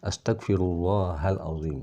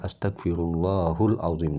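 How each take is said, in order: First: The vowel after Allah is an 'a' sound. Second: The vowel after Allah is a 'u' sound. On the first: The speaker calls it right. "yang betul adalah ... Jadi di fathah" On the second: The speaker calls it wrong. "Allah di situ di dhammah"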